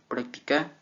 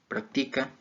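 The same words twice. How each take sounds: First: The stress is on the last syllable. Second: The stress is on the first syllable. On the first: It is used as a verb. "en aguda" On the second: It is used as a noun. "esdrújulas"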